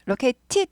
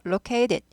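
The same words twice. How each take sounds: First: The t is a crisp, popping t sound. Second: The t is weakened into a soft flap. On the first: The speaker calls it wrong. "located 하지 않고 미국 영어는 트 발음 튀는 거 싫어해요" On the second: The speaker calls it right. "약화돼서"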